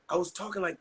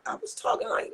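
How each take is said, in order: First: Said in the usual way. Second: Much higher, pinched strained squeak; I was talking like, squeezed way up high like a hurt voice; pushing the words out through an injured throat; damaged strained voice. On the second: Shown as a demonstration. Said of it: "literally talking like that".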